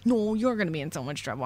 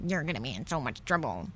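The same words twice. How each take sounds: First: Quick bickering comeback, stronger; mock childish retort. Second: Put-on low, quick, muted kid's taunt; mock childish taunt. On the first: Other kid throws the rude words back, quick mock retort. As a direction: rattle off a kid's hurried counter-threat. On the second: Two kids waiting for the principal trade rude words, low quick taunt. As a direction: toss off a low, hurried playground threat. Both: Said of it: "said rude things to each other".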